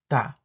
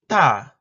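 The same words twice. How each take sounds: First: The first consonant is plain and lax. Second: The first consonant is tense and tight. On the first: "Alveolar stop affricate plain" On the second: "Alveolar stop affricate tense"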